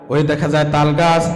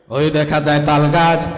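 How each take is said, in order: The two takes are said the same way.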